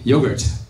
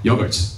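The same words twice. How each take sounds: First: It is said with an American pronunciation. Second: It is said with a British pronunciation. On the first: "In America, we say" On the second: "In England, we say"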